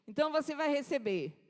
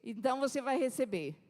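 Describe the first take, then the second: No difference in how they are said.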